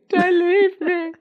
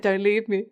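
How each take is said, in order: First: High, loud, drawn-out mock wail; mock desperate plea. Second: Said in the usual way. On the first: Imitating abandonment issues, hammed-up wailing plea. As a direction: beg like an abandoned drama queen, hammed-up. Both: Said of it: "the abandonment issues are so strong".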